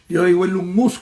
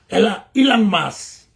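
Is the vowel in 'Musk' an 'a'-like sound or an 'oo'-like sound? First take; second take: oo-like; a-like. First: The vowel in Musk sounds like 'oo'. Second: The vowel in Musk sounds like 'a'. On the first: Most people say it this way. "como dice todo el mundo" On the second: Some people say it this way. "la U la pronuncian como aquí"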